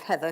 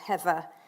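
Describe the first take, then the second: First: It is said in a standard accent. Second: It is said in a Cockney accent. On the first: "instead of" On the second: "thick Cockney accent. She used to say"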